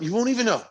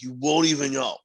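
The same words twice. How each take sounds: First: It is said in a normal voice. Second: It is said in a put-on voice.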